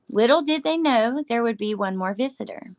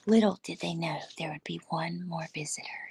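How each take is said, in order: First: It is read in a normal voice. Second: It is read in a put-on spooky voice.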